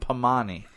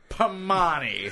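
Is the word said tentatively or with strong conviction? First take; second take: tentatively; strong conviction. First: The word is said plainly, without extra force. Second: The word is said forcefully, with strong conviction.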